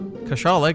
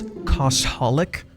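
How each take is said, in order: First: The name is said without a clear 'holic' ending. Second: The name is said ending with a clear 'holic'. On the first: The speaker calls it wrong. "I also pronounce it wrong" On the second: The speaker calls it right. "It's Koshalik, which makes a lot more sense"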